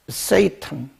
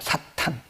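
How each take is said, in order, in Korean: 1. 첫 모음은 'ay' 미끄러지는 소리예요. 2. 첫 모음은 열린 'ah' 소리예요. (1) "영어로는 세이턴" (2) "헬라 말로는 사탄이에요"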